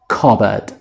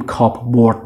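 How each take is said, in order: First: No p sound is pronounced mid-word. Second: A clear p sound is pronounced mid-word. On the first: The speaker calls it right. "اینجا پی تلفظ نمیشه" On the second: The speaker calls it wrong. "اینجا پی تلفظ نمیشه، نمیگیم کاپ بورد مثلا"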